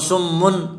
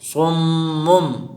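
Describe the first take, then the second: First: The word ends with an n sound. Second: The word ends with an m sound. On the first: The speaker calls it wrong. "सुम्मुन पढ़ना गलत है" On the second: The speaker calls it right. "इसको हम करेंगे सुम्मुम"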